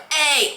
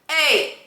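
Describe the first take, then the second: First: The vowel starts with a hard, pushed onset. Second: The vowel starts with a light, crisp onset. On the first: The speaker calls it wrong. "like really pushing it" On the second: The speaker calls it right. "That little really accurate sort of sound"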